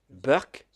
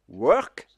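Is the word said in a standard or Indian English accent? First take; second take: Indian; standard. First: The word starts with a b sound. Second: The word starts with a w sound.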